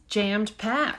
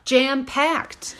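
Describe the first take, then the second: First: "jammed packed" with a stray d on jammed; slow, slightly stumbled "jammed packed"; slip of the tongue. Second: "Jam packed" cleanly re-said, no d after Jam; "Jam packed" said properly after a slip; self-correction. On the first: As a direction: say "jammed packed", misplacing the past-tense ending. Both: Real, not acted. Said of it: "I can talk too".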